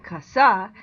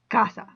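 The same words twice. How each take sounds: First: The stress is on the last syllable. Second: The stress is on the first syllable. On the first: The speaker calls it wrong. "I'd be putting the stress on the S A, which I'm not supposed to do" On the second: The speaker calls it right. "I'm supposed to put it on the C A. So that's why I say casa"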